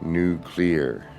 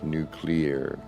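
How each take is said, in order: First: The word is said like new and clear. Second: The same.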